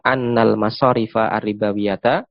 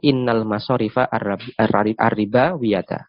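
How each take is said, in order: First: The first word begins with an 'a' vowel. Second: The first word begins with an 'i' vowel. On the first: The verb before it keeps its normal governing function. "Dengan menfathah uh, hamzah" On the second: The verb before it has its governing function suspended. "atau dengan mengkasrohnya"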